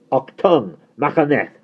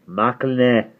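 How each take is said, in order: First: High, loud film-German shout; mock-German yell. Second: "Machaneth" higher, with a smoother Welsh middle; native Welsh pronunciation. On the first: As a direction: bark "Machaneth" hard, like "Achtung". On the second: Acted. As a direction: show how "Machaneth" is really said in Welsh. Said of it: "yours does sound wetter".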